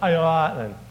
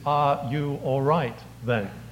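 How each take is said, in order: First: The words are slurred together into one word. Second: Each word is clearly and separately pronounced. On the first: "This is a phrase that you don't choose to enunciate" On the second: "translated it is"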